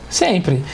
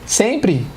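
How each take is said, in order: No difference in how they are said.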